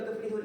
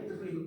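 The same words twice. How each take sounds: First: "tuflihun" with a final n sound; wrong ending. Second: "tuflihu" ends on an open u, no n; correct ending. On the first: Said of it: "Itu bukan tuflihun". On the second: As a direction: finish "tuflihu" on the vowel. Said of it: "Itu bukan tuflihun, ya, tuflihu". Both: Shown as a demonstration.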